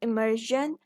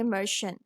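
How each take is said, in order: First: It is said with an American accent. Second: It is said with a British accent.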